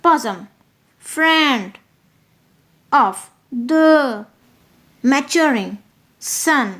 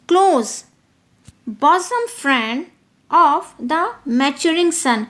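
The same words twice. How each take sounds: First: Bosom, friend, of, the, maturing, sun each said alone with pauses; slow stressed scansion; word by word stress. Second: Slow verse with stressed beats; iambic stress. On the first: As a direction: beat out the line one word at a time. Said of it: "stressed है". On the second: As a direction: close bosom friend drawn out. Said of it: "बिल्कुल ही stressed है". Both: Shown as a demonstration.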